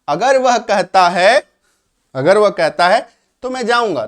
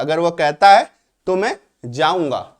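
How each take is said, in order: First: Loud example. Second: Said in the usual way. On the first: Shown as a demonstration. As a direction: stress the example for the class. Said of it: "if का मतलब अगर या यदि". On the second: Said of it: "तो यहाँ पे छुपा हुआ है".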